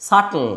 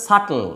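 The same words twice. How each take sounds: No difference in how they are said.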